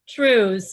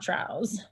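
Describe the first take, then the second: First: The vowel rhymes with 'blue'. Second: The vowel rhymes with 'cow'. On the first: The speaker calls it right. "It's Trues" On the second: The speaker calls it wrong. "not Trows"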